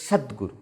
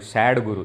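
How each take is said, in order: First: The first syllable has a short Sanskrit vowel. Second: The first syllable sounds like the English word sad. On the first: The speaker calls it right. "It is not sad guru. It is Sadguru" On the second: The speaker calls it wrong. "In English, sometimes they write no sad guru. It becomes S A D G U R U, sad guru"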